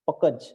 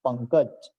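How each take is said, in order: First: There is no nasal sound before the k. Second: A nasal n sound comes before the k. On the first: The speaker calls it wrong. "नहीं" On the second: The speaker calls it right. "बिंदु का बहुत महत्व है यहाँ"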